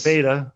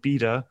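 First: It is said in an American accent. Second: It is said in a British accent.

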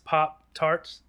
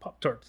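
First: The word is drawn out and flowing. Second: The word is clipped and mechanical. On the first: The speaker is fond of the thing and eats it. "it's kind of like drag, like it's Pop-Tarts? Like it's kind of a fluidity to it" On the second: The thing is just an object to the speaker. "it's all like sort of mechanical"

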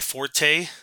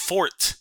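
First: The word is said with two syllables. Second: The word is said with one syllable. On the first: The speaker calls it wrong. "that's actually not the pronunciation" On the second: The speaker calls it right. "It's fort"

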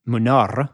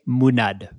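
First: The name ends with an R sound. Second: The name ends with a D sound. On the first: This is the Spanish way of saying it. The speaker calls it wrong. "no, that's the Spanish way" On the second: This is the Catalan way of saying it. The speaker calls it right. "Catalan, the R is a D"

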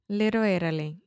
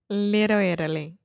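The two takes are said the same way.

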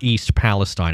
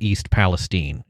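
First: The name is said the widespread everyday way. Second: The name is said the local Midwestern way. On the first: The speaker calls it wrong. "everyone's saying it wrong" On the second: The speaker calls it right. "Midwestern things where we take a place name and then pronounce it Different"

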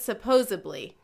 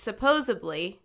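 First: The word is said with a b sound. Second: The word is said with a d sound. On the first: The speaker calls it wrong. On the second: The speaker calls it right.

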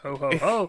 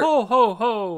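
First: It rises at the end like a question. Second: It falls at the end like a statement.

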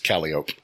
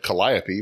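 First: It is pronounced in the local, non-spelling way. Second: It is pronounced the way the spelling suggests. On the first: The speaker calls it right. "but it's Calliope" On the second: The speaker calls it wrong. "you have a street that's spelled Calliope"

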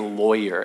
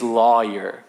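First: The first syllable sounds like loy, with oy. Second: The first syllable sounds like the word law. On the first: The speaker calls it wrong. "I always say lawyer as if it's O-Y" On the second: The speaker calls it right. "I think it's law, like it's the word law"

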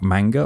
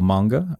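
First: The word is said in a non-American way. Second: The word is said in an American way.

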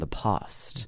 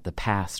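First: It has a broad British A vowel. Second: It has a flat American A vowel.

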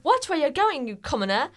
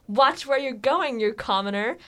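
First: It is read in a put-on British accent. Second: It is read in the speaker's ordinary accent.

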